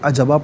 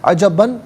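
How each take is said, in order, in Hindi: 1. शब्द का अंत लंबे स्वर से होता है। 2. शब्द का अंत न् की आवाज़ से होता है।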